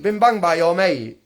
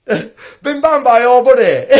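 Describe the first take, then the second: First: Said in the usual way. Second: Said through a laugh, slowly; chuckling at his own phrase, x0.7 slow. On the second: Real, not acted.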